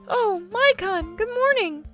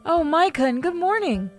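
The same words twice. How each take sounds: First: It is said in a put-on character voice. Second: It is said in the speaker's normal voice.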